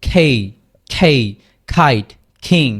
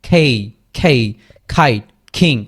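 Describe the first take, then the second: Both takes have the same delivery.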